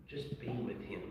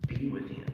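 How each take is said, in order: First: Quiet, gentle reassurance; soft fatherly advice. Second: Breathy, almost whispered echo; near-whispered repeat. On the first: Father gently advising his grieving son, quiet and tender. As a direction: say it low and tender. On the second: Father repeating his advice to his son, almost whispered. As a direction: let it fall to a whisper. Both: Retold or imitated. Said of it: "And I said".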